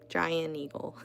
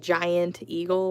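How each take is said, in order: First: The T is dropped and the words run together. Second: The T is pronounced and the words are separate. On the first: "All one word, no T" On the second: "instead of saying"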